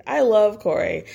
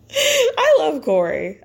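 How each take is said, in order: First: Said in the usual way. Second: Drawn-out, high gushing "I love Corey."; gushing fan. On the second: Real, not acted. Fan gushing about the boyfriend's teasing, swooning slowly.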